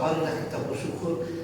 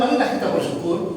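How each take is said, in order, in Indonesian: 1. Diucapkan dengan datar, seperti membaca, tanpa perasaan. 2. Diucapkan dengan hangat, penuh perasaan dari hati. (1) "Kalau saya baca, itu tidak ada konteks ke batin Bapak" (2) "Itu saya bawa di batin saya, saya bawa"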